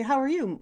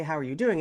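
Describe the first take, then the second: First: Higher-pitched "how are you"; pointed inquiry. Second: Said in the usual way. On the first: Retold or imitated. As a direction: lift the question high, as if checking on someone. Second, more pointed greeting.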